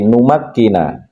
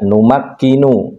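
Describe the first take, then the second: First: The word ends with an 'a' vowel. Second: The word ends with an 'u' vowel. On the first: The speaker calls it right. "dibaca A" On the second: The speaker calls it wrong. "tidak U, tidak numakkinu"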